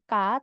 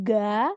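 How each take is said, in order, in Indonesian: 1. Diawali bunyi k yang jelas. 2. Diawali bunyi g yang bersuara penuh. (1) "bukan K" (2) "Jadi bukan ga"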